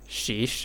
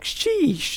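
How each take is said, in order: First: It is said flatly, with little energy. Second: It is said with full, emphatic energy. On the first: The speaker calls it wrong. "if you say it lazily" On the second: The speaker calls it right. "it has to be said with that tone"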